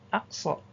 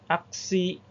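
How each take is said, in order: First: The word ends in an 'ah' vowel. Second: The word ends in an 'ee' vowel. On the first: The speaker calls it right. "tapi akso" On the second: The speaker calls it wrong. "Bukan aksi"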